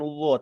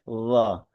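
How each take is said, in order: First: The vowel is rounded like an O. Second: The vowel stays open and is backed. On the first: The speaker calls it wrong. "bukan lo" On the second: The speaker calls it right. "tapi lo"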